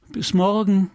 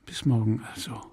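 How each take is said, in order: First: Higher, louder call across the water; calling goodbye into the dark; calling after him. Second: Soft, intimate goodbye with a caress; quiet loving parting; tender farewell. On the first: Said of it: "rief sie". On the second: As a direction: say it gently, close to him. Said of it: "mit einer letzten Liebkosung". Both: Acted.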